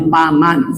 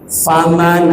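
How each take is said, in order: First: The word begins with a p sound. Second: The word begins with an f sound. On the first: The speaker calls it wrong. "bukannya paman" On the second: The speaker calls it right. "fa fa fa fa"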